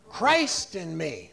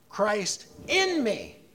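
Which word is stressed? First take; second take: Christ; in. First: The stress falls on the word Christ. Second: The stress falls on the word in. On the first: "you put the emphasis on the very first word" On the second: "we're going to put the emphasis on the second word"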